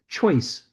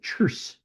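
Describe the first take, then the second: First: It is said with the standard 'oy' vowel. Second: It is said with an 'ur' vowel, like churse. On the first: "He says choice" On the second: "he likes to pronounce it churse"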